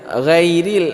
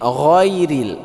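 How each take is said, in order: First: The first consonant is pronounced light and thin. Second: The first consonant is pronounced heavy and full. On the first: The speaker calls it wrong. "jangan ghairil" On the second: The speaker calls it right. "tapi ini tebal"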